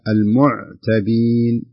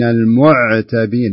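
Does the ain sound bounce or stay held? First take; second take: held; bounce. First: The ain sound is held steady. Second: The ain sound has a slight bounce. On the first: The speaker calls it right. "فلا بد تمسكين العين" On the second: The speaker calls it wrong. "فلا تقرأينها بهذا الشكل"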